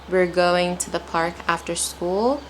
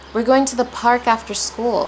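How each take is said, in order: First: It is read slowly and carefully. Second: It is read at a normal speaking pace. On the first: "take your time" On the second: "apply a normal pace"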